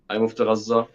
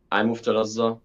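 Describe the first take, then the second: No difference in how they are said.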